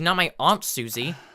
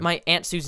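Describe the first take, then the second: First: It is said in a put-on British accent. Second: It is said in a non-British accent.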